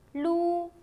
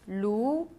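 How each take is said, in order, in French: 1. Le ton reste haut et plat. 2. Le ton monte du milieu vers le haut.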